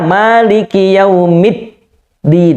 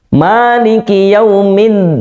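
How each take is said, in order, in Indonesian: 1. Bunyi sebelum din berhenti tanpa aliran. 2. Bunyi sebelum din berdengung lewat hidung. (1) "Harusnya maliki yaumid din" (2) "min, mengalir"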